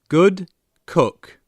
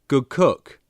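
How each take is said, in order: First: It is said slowly and carefully. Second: It is said fast and connected.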